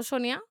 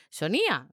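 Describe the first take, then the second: First: Said in the usual way. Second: "Sonia" said as so-NÍ-a with a peak on the i; stress on the í. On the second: Shown as a demonstration. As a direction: punch the i in "Sonia", then drop. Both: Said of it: "el acento en la I no pega".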